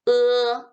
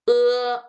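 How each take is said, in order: Both takes have the same delivery.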